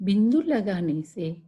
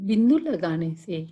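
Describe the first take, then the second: The two takes are said the same way.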